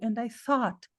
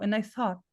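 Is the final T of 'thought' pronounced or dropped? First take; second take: pronounced; dropped. First: The final T sound is pronounced. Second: The final T sound is dropped. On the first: "ele pode falar o T. ... Pode falar" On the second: "Ou a pessoa pode não falar"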